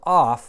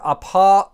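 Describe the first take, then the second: First: The word ends in an f sound. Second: The word ends in a vowel. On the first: "that p is aspirating" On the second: "So whatever apa"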